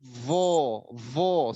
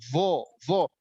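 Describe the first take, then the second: First: VO with a light, unthickened voiced th; faulty thin vo; wrongly thinned. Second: VO with a heavy, streaming voiced th; thick and flowing. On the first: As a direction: say vo without any heaviness. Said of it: "Vo-nya tidak ditebalkan". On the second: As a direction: let vo flow, dark and full. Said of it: "Harusnya vo itu mengalir tebal". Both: Shown as a demonstration.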